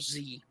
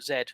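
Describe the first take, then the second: First: The letter is said the American way, zee. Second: The letter is said the British way, zed.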